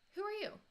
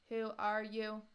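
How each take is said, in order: First: It is said in a natural way. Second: It is said in an unnatural way.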